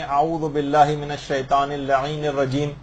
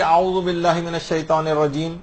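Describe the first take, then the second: First: Slow, careful Arabic recitation with اللعین added. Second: Said in the usual way. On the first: Shown as a demonstration. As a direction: recite اعوذ باللہ من الشیطان اللعین الرجیم word by word, unhurried. (آہستہ اور ٹھہر ٹھہر کر تلاوت) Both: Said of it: "اگر ہم لعین کا اضافہ کر لیں".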